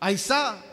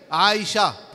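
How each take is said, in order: First: The middle consonant is a plain 's' sound. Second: The middle consonant is an 'sh' sound. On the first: The name is spoiled. The speaker calls it wrong. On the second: The name is kept intact. The speaker calls it right.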